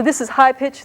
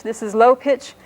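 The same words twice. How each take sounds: First: Raised pitch to show the high tone. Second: Low pitch. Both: Shown as a demonstration.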